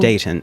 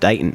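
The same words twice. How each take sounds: First: The middle T is clearly pronounced. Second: The middle T is dropped. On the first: The speaker calls it wrong. "I've gotten better with not pronouncing the T in Dayton, because when I first met, I'm like" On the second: The speaker calls it right. "nobody says that. There's there's like it's"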